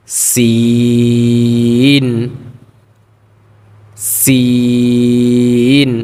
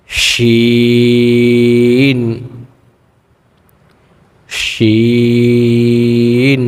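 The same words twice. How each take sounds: First: সিন held long with a thin hiss; thin long Sin. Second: শিন drawn out with a snake-like sh; long hushing Shin. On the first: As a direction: stretch সিন thin, not শিন. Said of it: "চিকন করে আওয়াজটা বের করতে হবে". (চিকন করে লম্বা সিন) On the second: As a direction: hold শিন like a hooded snake's hiss. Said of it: "শা শা একটা আওয়াজ". (সাপের শা শা আওয়াজে শিন) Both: Shown as a demonstration.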